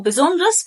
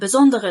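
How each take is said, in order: First: Besonders with the middle e dropped; quick-speech form. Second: Besonderes with the extra e clearly sounded; full-syllable besonderes. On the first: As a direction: shorten besonders to three syllables. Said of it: "كنطق سريع صح". (نطق besonders مختصرة من غير e) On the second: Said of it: "حرف ال إيه اللي هنا ده هيخليها". (نطق besonderes كاملة بحرف e) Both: Shown as a demonstration.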